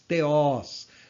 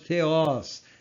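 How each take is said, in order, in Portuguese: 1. Começa com um t simples, sem aspiração. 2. Começa com um som de th suave. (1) "nós não falamos teós" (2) "nós falamos theos"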